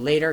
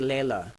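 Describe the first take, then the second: First: The middle consonant is a t sound. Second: The middle consonant is an l sound.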